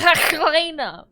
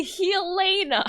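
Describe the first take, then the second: First: "Helena" with a loud guttural Dutch throat sound; Dutch pronunciation. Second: "Helena" said as he-LAY-na; correct pronunciation of Helena. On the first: Streamer joking Helena is pronounced like a Dutch person, exaggerated guttural. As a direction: drag out a harsh Dutch rasp in "Helena". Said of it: "it's pronounced like a Dutch person". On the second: Streamer correcting how Helena is said, clearly pronounced. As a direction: say "Helena" with a stressed LAY in the middle. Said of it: "It's actually Helena". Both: Shown as a demonstration.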